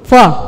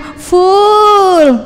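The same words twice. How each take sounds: First: The vowel is short, leaning toward e. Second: The vowel is long, like in fool. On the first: It means having eaten enough. The speaker calls it right. "U-nya pendek" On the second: It sounds like calling oneself stupid. The speaker calls it wrong. "Loh kok jadi goblok?"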